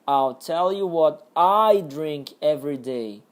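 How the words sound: The stress falls on the word I. "a entonação aqui era no I, no eu"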